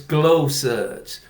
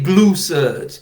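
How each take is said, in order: First: The first part rhymes with 'go'. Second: The first part rhymes with 'blue'. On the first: The speaker calls it right. "it's glow suds" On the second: The speaker calls it wrong. "you don't say glue suds"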